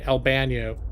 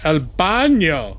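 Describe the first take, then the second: First: It is said with an American English accent. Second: It is said with Spanish-like pronunciation.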